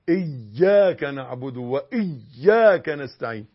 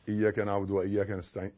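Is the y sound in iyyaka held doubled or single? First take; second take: doubled; single. First: The y sound in iyyaka is held and doubled. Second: The y sound in iyyaka is short and single. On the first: The speaker calls it right. "لا،" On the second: The speaker calls it wrong. "ما تقولش"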